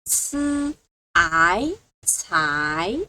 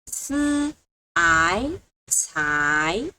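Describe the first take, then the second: The two takes are said the same way.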